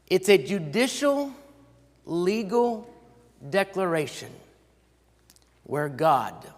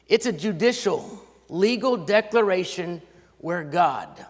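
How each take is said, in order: First: It is spoken at a slower, deliberate pace. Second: It is spoken at a normal, quicker pace.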